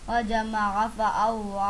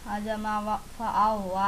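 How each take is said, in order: Both takes have the same delivery.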